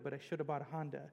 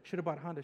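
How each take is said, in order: First: The phrase is said at a normal pace. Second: The phrase is said very fast.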